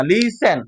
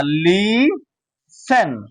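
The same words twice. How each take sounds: First: লিসেন said as a quicker lee-sen, no t; silent T. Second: লিসেন stretched very slowly as lee... sen, no t; long drawn-out লিসেন without a t; silent T. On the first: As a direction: say লিসেন more joined up, t left silent. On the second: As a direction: split লিসেন in two, leaving out the t. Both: Shown as a demonstration. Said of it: "টিটা উচ্চারণ হবে না".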